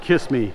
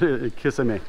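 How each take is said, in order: First: It is said like the English phrase 'kiss me'. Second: It is said as three syllables, ki-sa-me. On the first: The speaker calls it wrong. "Bad English pronunciation" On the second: The speaker calls it right. "but kisame"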